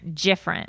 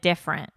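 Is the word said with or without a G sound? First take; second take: with G; without G. First: The word is said with a G sound. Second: The word is said without a G sound. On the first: "I say it with a G" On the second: "instead of different"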